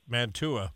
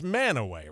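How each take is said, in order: First: The T sound is pronounced in the middle. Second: The T sound is dropped from the middle. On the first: This is how an outsider would read the name. "I would say Mantua, maybe, if I wasn't from around here" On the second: This is how locals say the name. "But it's it's Manaway, right?"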